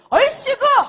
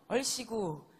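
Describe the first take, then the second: First: It is shouted loudly, with lots of energy. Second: It is said quietly, with little energy. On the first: The speaker calls it right. "조금 더 크게" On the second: The speaker calls it wrong. "이런 목소리는 이제 부자가 될 수가 없어요"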